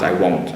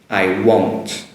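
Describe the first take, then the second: First: The word is said in a relaxed, natural way. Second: The word is said strongly and exaggerated. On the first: "as I normally say it, if I'm, you know, speaking naturally" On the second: "I say it strongly like that"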